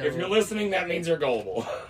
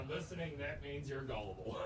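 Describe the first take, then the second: First: It is said more loudly. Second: It is said at normal, quieter volume.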